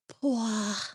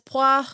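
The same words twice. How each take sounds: First: It is said in a sensual voice. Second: It is said in a plain voice.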